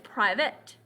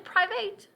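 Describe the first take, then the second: First: The last syllable sounds like 'it'. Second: The last syllable sounds like 'eight'. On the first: The speaker calls it right. "but it's private" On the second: The speaker calls it wrong. "We don't say private"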